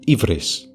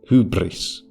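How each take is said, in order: First: It starts with an 'ee' vowel and a v sound. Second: It starts with an h and a rounded vowel. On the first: This is how Greeks say it today. "A Greek of today would say ivris" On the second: This is how ancient Athenians said it. "an ancient Athenian would say hubris"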